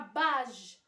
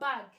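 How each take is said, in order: First: The g is said as a soft zh sound. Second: The g is said as a hard g sound. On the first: The speaker calls it wrong. "كون ما كانتش هاد لو او غتقرا" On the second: The speaker calls it right. "ولكن حنا لو مو هو"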